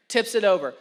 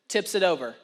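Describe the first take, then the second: No difference in how they are said.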